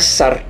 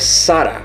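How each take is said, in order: First: The name ends on the consonant r. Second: The name ends with a final vowel sound. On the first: The speaker calls it wrong. "não é Sar" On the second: The speaker calls it right. "é Sara"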